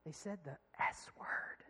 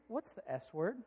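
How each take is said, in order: First: Secretive, slow whisper; hushed little confession; imitated child's whisper. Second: Said in the usual way. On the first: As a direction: whisper it like a child confiding a naughty word. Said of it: "she whispers and she said".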